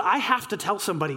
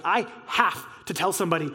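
First: Said in the usual way. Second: Low, emphatic "have", pause before "to tell somebody"; stress on HAVE. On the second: Real, not acted. Repeats it with added emphasis.

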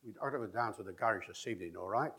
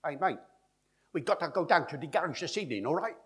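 First: Quick stress-timed Cockney, weak syllables squashed; traditional Cockney rhythm. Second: High, loud Cockney, every syllable punched evenly; syllable-timed Cockney. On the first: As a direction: run it along in a ti-TUM Cockney lilt. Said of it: "Ti-tum, ti-tum". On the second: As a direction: rattle it off in fast machine-gun Cockney. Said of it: "They speak like this". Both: Shown as a demonstration.

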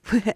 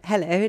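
First: Said in the usual way. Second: Put-on voice. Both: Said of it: "Why is that a voice?".

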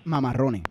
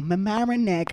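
First: "Mamarrone" with rolled rr, no final k; Spanish pronunciation. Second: "Mamaroneck" as "me-MA-ra-nek", English r; imitated English pronunciation. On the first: Shown as a demonstration. Co-host naming a town, "Mamarrone" with Spanish sounds. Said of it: "esta gente diciendo Mamaroneck". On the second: Co-host mocking how others say it, imitated "me-MA-ra-nek". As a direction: say "Mamaroneck" mimicking English, closing k. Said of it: "escuchar a esta gente diciendo".

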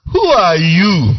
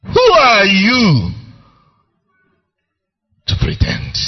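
First: Plain. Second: Rising challenge. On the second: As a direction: drive the challenge home harder. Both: Real, not acted. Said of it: "preacher challenging the hearers".

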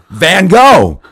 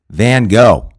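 First: Much louder, higher and insistent; exasperated shouted clue; louder repeat. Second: Clue called out. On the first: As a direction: bark the clue again, as if volume will help. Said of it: "Like louder was gonna help". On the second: Celebrity giving the clue. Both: Retold or imitated.

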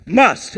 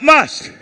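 First: Said in the usual way. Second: Must called out loud and high; shouted word. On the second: Shown as a demonstration. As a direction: shout must for the crowd to echo. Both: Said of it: "everybody shout".

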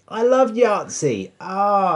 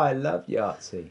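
First: High, slow gushing; excited. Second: Said in the usual way. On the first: Real, not acted. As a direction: gush about it happily. Excited at remembering Yahtzee.

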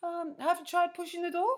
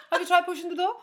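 First: High, mock Scandinavian receptionist; deadpan Scandinavian receptionist's question; generic Scandinavian accent. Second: High-pitched mock Scandinavian lilt; generic Scandinavian accent. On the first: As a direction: Scandi accent, patiently puzzled. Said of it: "that's my generic Scandinavian accent". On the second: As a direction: put on a vague Scandi accent. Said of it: "I don't know what accent that is".

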